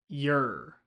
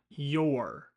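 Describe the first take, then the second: First: The word is shortened to sound like yer. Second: The word is said in its full form. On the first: The speaker calls it right. "the R shortcut" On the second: The speaker calls it wrong. "not your"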